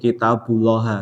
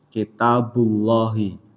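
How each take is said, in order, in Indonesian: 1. Kata itu berakhir dengan vokal a. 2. Kata itu berakhir dengan vokal i.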